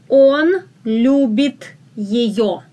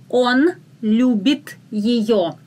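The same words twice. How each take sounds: Both takes have the same delivery.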